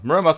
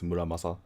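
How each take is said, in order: First: The name is said with an English accent. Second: The name is said with a Japanese accent. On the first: "I think everyone says correctly" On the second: "if you want to say it like in the cool Japanese ways"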